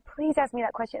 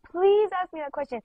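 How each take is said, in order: First: Gentle retold plea, a little higher; lightly begging; mild pleading. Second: Retold desperate plea; insistent begging. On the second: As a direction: plead with real urgency on "please". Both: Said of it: "begging me, like".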